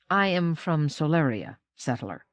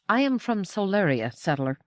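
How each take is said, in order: First: It is said lower in a standard Auroran accent. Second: It is said in a thick Solarian accent.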